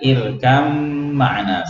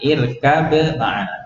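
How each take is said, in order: First: The b merges into the following m sound. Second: The b is released clearly before the m. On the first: This is an exception to the basic rule. "kalau tidak dibaca jelas ... maka dibaca irkam ma'ana" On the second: This is the basic rule for the two letters. "Aslinya adalah irkab, ba selesai qalqalah, kemudian ma'ana"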